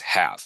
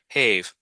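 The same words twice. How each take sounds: First: The vowel is a short A, like 'cat'. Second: The vowel is a long A, like 'cave'. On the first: The speaker calls it right. "Nope, yeah, this is just have" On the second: The speaker calls it wrong. "that silent E means A says its name, and that should say have"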